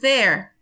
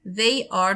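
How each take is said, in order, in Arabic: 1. الكلمتين بيتختصروا لمقطع واحد. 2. بتتقال كلمتين كاملين لوحدهم.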